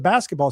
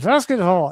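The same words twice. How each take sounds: First: It starts with a normal B sound. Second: It starts with a V sound, lips still. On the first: "instead of" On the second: "the B's were hard and you'd use a V"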